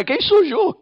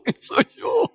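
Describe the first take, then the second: First: Questioning. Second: Laughing question. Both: Shown as a demonstration. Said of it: "Que yo tuve una crisis de identidad".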